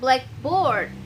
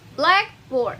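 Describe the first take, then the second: First: The stress is on board. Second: The stress is on black.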